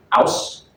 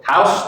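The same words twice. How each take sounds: First: "house" with a silent H, starting on the vowel; dropped H. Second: Said in the usual way. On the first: Shown as a demonstration. Student showing classmates Cockney H dropping, "house" without its H. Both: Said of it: "features like H dropping".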